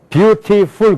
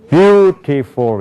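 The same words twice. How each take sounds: First: All syllables are said flat, without stress. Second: One syllable carries clear stress. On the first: The speaker calls it wrong. "그런 영어가 없어요" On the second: The speaker calls it right. "이렇게 된단 말이에요"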